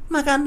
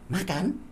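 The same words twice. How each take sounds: First: It is said with a commanding intonation. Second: It is said with a questioning intonation. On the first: Someone is being told to eat. "nah ini berarti perintah" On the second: The guest is being asked whether they want to eat. "Nah ini tanya makan"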